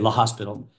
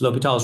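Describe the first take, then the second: First: It sounds like the English word hospital. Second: It is said the French way, without hospital. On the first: The speaker calls it wrong. "it's not you don't say La Hospital" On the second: The speaker calls it right. "It's French"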